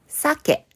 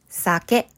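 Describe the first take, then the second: First: The pitch is high on the first syllable. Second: The pitch is high on the second syllable. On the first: It means salmon. "一つ目の酒は魚です。" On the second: It means alcohol. "二つ目の酒は飲み物です。"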